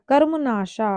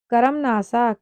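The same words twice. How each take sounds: First: कर्मनाशा with a sh sound; correct pronunciation. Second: कर्मनाशा with s for श; wrong pronunciation. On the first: Teacher correcting the word, कर्मनाशा with sh. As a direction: say कर्मनाशा as karmu-nasha. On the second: Teacher reading out the error, कर्मनाशा with s. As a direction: say कर्मनाशा as karam-nasa. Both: Shown as a demonstration. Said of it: "स से सलजम".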